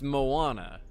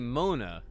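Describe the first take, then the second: First: The name is said with three syllables. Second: The name is said with two syllables. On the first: The speaker calls it right. "and it's Moana" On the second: The speaker calls it wrong. "I think I say Mona"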